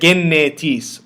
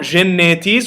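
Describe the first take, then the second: First: It starts with a hard g sound. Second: It starts with a soft, breathy gh sound. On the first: The speaker calls it right. "we say genetis. So it's pronounced as g, as in go" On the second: The speaker calls it wrong. "not genetis"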